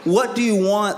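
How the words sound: It sounds sharply exasperated and frustrated.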